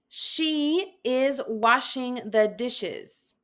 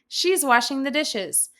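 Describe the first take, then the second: First: She and is are said as separate full words. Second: She and is are joined into one contracted syllable.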